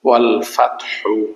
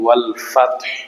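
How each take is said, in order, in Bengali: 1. শেষ শব্দটি একটি হ্রস্ব উ স্বরে শেষ হয়। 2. শেষ শব্দটি একটি হালকা হ ধ্বনিতে শেষ হয়। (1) "হা পেশ হু ওয়াল ফাতহু" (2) "ওয়াকফ হাটা সাকিন হবে ... অল্প করে উচ্চারণ হবে"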